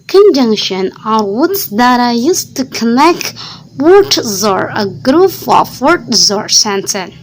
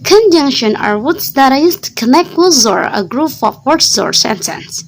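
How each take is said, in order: First: The sentence is read at a moderate speed. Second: The sentence is read at a fast speed. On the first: "lebih cepat sedikit atau uh, middle" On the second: "kita cepat sekali lagi"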